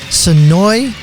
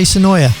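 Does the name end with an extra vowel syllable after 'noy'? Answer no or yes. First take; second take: no; yes. First: The name ends on the 'noy' sound. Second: The name ends with an extra final vowel syllable. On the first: The speaker calls it right. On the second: The speaker calls it wrong.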